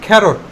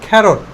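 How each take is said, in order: First: The first consonant is a breathy, aspirated k. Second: The first consonant is a breathy, aspirated k.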